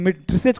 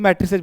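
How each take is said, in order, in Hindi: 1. यह सामान्य भारतीय अंग्रेज़ी लहजे में बोला गया है। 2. यह अमेरिकी अंग्रेज़ी लहजे में बोला गया है।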